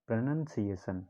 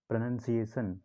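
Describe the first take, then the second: No difference in how they are said.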